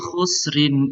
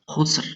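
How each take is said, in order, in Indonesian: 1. Kata ini berakhir dengan tambahan bunyi 'in'. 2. Kata ini berakhir dengan bunyi 'r' biasa. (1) "jika dilanjutkan dengan ayat ketiga" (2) "khusrin dibaca berhenti ya, khusr ya"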